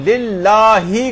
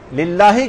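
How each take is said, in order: First: The final vowel is drawn out long. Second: The final vowel is short. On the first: The speaker calls it wrong. "लेकिन लिल्लाही कर देते हैं उसको" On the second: The speaker calls it right. "लिल्लाही कहना है"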